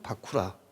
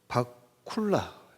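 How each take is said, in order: First: It is said ba-ku-ra, with no l sound. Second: It is said ba-kul-la, with an l sound. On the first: This is the reading of the Chinese transliteration. "한약으로는 바쿠라" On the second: This is the original Sanskrit pronunciation. "번본어는 바쿨라. 이렇게 이 발음을 합니다"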